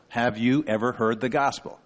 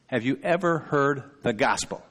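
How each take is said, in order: First: "you" picked out with emphasis; stress on YOU. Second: "ever" picked out with emphasis; stress on EVER. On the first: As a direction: lean on the word "you". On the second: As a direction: lean on the word "ever". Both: Shown as a demonstration. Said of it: "I heard the emphasis on different words".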